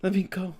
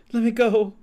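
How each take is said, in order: First: Said in the usual way. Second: Higher, louder pleading cry; louder desperate plea. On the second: Acted. Ghost begging again, higher and louder. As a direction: beg harder to be let go.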